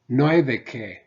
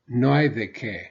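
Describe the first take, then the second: The two takes are said the same way.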